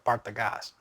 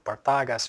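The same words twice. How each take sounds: First: The stress is on the last syllable. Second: The stress is not on the last syllable. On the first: The speaker calls it right. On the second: The speaker calls it wrong.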